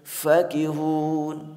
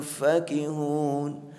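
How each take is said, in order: First: The first vowel is said short. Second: The first vowel is said short.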